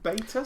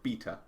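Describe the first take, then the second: First: The word has an Americanized pronunciation. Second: The word rhymes with Peter. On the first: "sounds like an Americanized version" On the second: "to rhyme with Peter"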